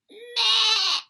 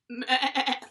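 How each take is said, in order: First: A small goat's bleat in a higher voice. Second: A bigger goat's bleat in a lower voice.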